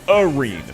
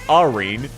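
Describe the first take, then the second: First: The name begins with a 'you' sound. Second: The name begins with an 'ah' sound. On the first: The speaker calls it right. "You pronounce it Arene, which is a U" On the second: The speaker calls it wrong. "You do not pronounce it Arene"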